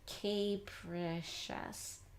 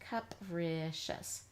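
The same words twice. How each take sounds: First: The first syllable has a long a sound. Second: The first syllable has an uh sound. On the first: The speaker calls it wrong. "the sound long A" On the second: The speaker calls it right. "let's try an uh sound here now"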